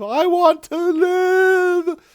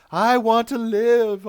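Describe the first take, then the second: First: Very slow, very high drawn-out wail; desperate wail. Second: Slow, high, loud plea; pleading. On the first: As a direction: wail it, stretching every word. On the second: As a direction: beg slowly, voice climbing. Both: Retold or imitated. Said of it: "Tuvix was begging for his life".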